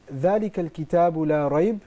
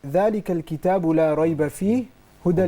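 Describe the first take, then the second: First: The pause comes before the word fihi. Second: The pause comes after the word fihi.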